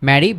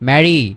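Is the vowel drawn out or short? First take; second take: short; drawn out. First: The vowel is short and quick. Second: The vowel is drawn out and slow. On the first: The speaker calls it right. "একটু fast বলতে হবে" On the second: The speaker calls it wrong. "আমরা কখনোই বলবো না"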